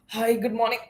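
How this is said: The voice sounds flat and tired. The caller seems tired and struggling. The speaker calls it wrong. "Dullness and tiredness. Yes, true"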